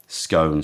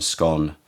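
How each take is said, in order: First: Scone with a long o, like stone; scone rhymed with stone. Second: Scone with a short o, like gone; scone rhymed with gone. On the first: Host trying out one way to say Scone, rhyming with stone. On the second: Host trying the other way to say scone, rhyming with gone. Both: Shown as a demonstration. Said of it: "I always interchange them".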